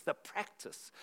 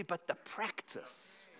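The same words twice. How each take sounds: First: Said in the usual way. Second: "the practice" breathed slowly in a whisper; whispered emphasis. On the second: Acted. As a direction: drop to a slow whisper on "practice" to drive it home. Repeating key phrase for emphasis.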